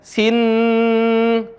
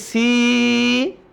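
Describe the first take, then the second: First: The vowel is said short. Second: The vowel is held long, six counts. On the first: The speaker calls it wrong. "Bukan dibaca sin" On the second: The speaker calls it right. "tapi si. Enam harokat"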